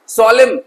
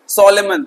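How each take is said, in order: First: The word ends without an n sound. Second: The word ends with a clear n sound. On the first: The speaker calls it right. "एन silent रहेगा" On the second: The speaker calls it wrong. "कुछ बच्चे से गलत प्रोनाउंशिएट करते हैं"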